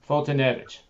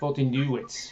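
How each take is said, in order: First: The ending is said with a v sound. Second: The ending is said with a w sound. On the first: The speaker calls it right. "I must have thought the V was a W" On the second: The speaker calls it wrong. "I thought it was like pronounced new"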